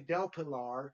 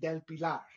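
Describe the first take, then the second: First: The name is said with an English accent. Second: The name is said with a Spanish accent. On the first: This way feels forced to the speaker. The speaker calls it wrong. "it was harder for me to say" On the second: This way feels easier to the speaker. The speaker calls it right. "I say it easier when I say it with a Spanish accent"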